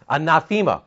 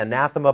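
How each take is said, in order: First: The vowel after 'th' is a long 'ay' sound. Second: The vowel after 'th' is short and reduced. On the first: This follows the original Greek vowel. The speaker calls it right. "the correct pronunciation is anathema because there's an ida in the middle" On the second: This is the usual English way of saying it. The speaker calls it wrong. "We say anathema"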